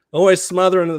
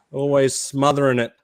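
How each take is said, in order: First: Mock outrage. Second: Said in the usual way. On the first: Real, not acted. Teasing Americans about Vegemite.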